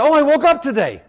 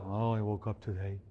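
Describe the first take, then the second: First: Higher, upbeat and glad; bright cheerful wake-up. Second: Much lower, very soft and glum; deflated, mopey mumble; gloomy. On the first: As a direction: greet the morning like a gift. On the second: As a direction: sigh it out like a dreary morning. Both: Shown as a demonstration. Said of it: "Same words, different attitude".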